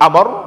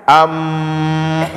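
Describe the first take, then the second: First: The final r is released sharply and abruptly. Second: The final r is drawn out and flowing. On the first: "jangan terlalu dilepas sehingga jadi amr" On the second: "jangan terlalu di apa namanya dialirkan, am, salah juga"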